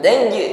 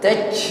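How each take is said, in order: First: The final j ends with a voiced bouncing release. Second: The final j ends with a puff of air. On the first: The speaker calls it right. "ini qalqalah, bunyi hurufnya memantul" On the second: The speaker calls it wrong. "seolah-olah yang memantul bukan bunyi huruf tetapi angin"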